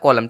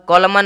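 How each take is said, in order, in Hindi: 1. शब्द का अंत m ध्वनि से होता है। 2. शब्द का अंत एक साफ़ सुनाई देने वाली n ध्वनि से होता है। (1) "लेकिन यहाँ पे यूज हुआ है कॉलम" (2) "एन का अगर आप प्रोनाउंसिएशन लेते एम के साथ तो कॉलमन कॉलमन आ जाता"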